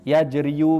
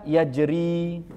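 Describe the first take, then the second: First: The word ends with an added 'yu' syllable. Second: The word ends in a plain long i. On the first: The speaker calls it wrong. "Maka tidak perlu dibaca yajriyu, ... tidak sama sekali" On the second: The speaker calls it right. "seperti contoh kata yajri"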